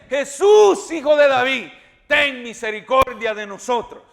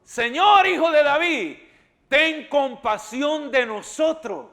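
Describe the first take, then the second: First: Shouting louder. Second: Crying out. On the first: Blind men shouting to Jesus over the crowd, loud plea. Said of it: "gritaron más fuerte". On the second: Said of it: "¿Y cómo dijo?". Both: Acted.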